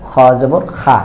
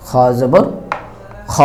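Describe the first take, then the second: First: খা said with a full open Bengali a, the wrong way; খা pronounced like Bengali আকার, shown as an error; wrong open a demo. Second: খ said with a thick, rounded heavy vowel, not খা; heavy letter vowel on খ, rounded toward o; heavy recitation. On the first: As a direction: demo the mistaken খা with a wide bright a. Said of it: "কিন্তু আমরা কিন্তু খা বলি না". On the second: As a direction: recite খ জবর খ with a full-mouthed dark a. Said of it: "এই হরফগুলোর উচ্চারণে ... হবে না". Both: Shown as a demonstration.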